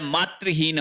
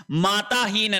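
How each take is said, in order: First: मातृहीन with "tri" in the middle; correct form. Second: माताहीन with "taa" in the middle; wrong form. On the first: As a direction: say "maa-tri-heen" for मातृहीन. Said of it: "मातृहीन होता है". (मातृहीन में बीच में "तृ") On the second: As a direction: say "maa-taa-heen" for माताहीन. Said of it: "माताहीन नहीं होता है". (माताहीन में बीच में "ता") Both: Shown as a demonstration.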